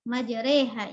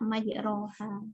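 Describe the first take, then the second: First: The vowel after r is fronted toward e. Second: The vowel after r is a plain open a. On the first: "Majreha imalah" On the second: "Bil fathah majroha"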